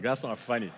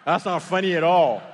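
First: Said in the usual way. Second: Indignant objection, louder; unamused and forceful; louder indignant retort. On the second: Acted. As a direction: raise the volume on a bad-joke complaint. Retort repeated with more force.

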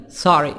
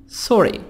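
First: American "sorry" with an open AH; American accent. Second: "Sorry" with a rounded O; non-American vowel. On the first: Teacher contrasting accents, American "sorry" with AH. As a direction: open the O to "sah-ree", American style. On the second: Teacher contrasting accents, "Sorry" with rounded O. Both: Shown as a demonstration.

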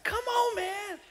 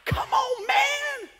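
First: Higher, exasperated; mild exasperated come on. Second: Much higher, exasperated; exasperated come on. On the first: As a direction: say it in disbelief. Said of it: "It's like". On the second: God exasperated with believer, high pitched come on man. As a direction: squeal it in disbelief. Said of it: "You got, like, angry". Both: Retold or imitated.

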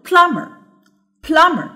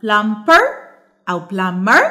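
First: Plumber starting high on PLUM, falling after; stress on first syllable. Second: Plumper, plumber with the last syllable pushed up; wrong final stress. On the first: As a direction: raise the voice on PLUM in plumber, then settle. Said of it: "صوتي بيعلى في أول الكلمة". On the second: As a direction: show the mistake: plumPER, plumBER, rising at the end. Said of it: "مش بعمل ستريس على المقطع الأخير". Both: Shown as a demonstration.

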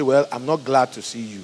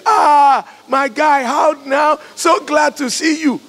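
First: Low-key, unenthusiastic admission; unwelcoming. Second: Loud, high-pitched, exaggerated delight; hammed-up shout of joy at greeting a visitor; gushing fake welcome. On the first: Acted. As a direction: mildly put out, without any excitement. What you really feel about visitor.

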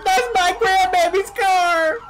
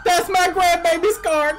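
First: High, loud, drawn-out shriek; slow screaming. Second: High, loud shriek of a robbed granny; screaming. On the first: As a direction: stretch the scream as he drives off. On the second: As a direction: scream after the car thief. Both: Acted. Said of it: "I've got you screaming at me".

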